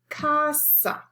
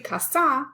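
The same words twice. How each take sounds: First: The stress is on the first syllable. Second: The stress is on the last syllable. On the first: The speaker calls it right. "the natural stress is on the second to the last syllable" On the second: The speaker calls it wrong. "We don't say casa"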